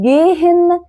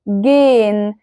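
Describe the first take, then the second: First: The h in the middle is clearly sounded. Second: The h is silent and the vowel is lengthened. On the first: The speaker calls it wrong. "ما ينفعش تقول جيهن" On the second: The speaker calls it right. "هل سمعتوا نطق الها كده واضحة وصريحة؟ لا"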